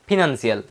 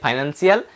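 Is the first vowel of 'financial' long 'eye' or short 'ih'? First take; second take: short ih; long eye. First: The first vowel is a short 'ih' sound. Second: The first vowel is a long 'eye' sound. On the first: "आप जिस type से pronounce कर सकते हो वैसे कीजिए" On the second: "फाइनेंशियल बोलो या फिनेंशियल बोलो एक ही बात"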